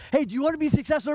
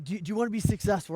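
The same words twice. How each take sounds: First: High, loud and fast pumped-up question; hyped host. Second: Said in the usual way. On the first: Retold or imitated. Speaker asks a seminar crowd, loud, high, fast hype. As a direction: fire up the room like a hype man.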